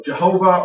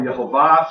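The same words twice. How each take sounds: First: JEHOVAH said with an English J; Jehovah, opening on a J and ending in a relaxed "uh"; English pronunciation. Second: YEHOVAH opening on a Y, ending in a full "ah"; Hebrew pronunciation. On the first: Teacher giving the name of God in English, English pronunciation. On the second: Teacher giving the name of God in Hebrew, Hebrew pronunciation. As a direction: say Yehovah the Hebrew way, final syllable carried. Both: Shown as a demonstration. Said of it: "or in the Hebrew".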